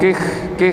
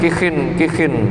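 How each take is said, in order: First: The word ends on a bare kh sound. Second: The word ends with an added -in sound. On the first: "biis kanil khok, khoknya disukun" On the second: "bikasriha ma'at tanwin, dibaca tanwin"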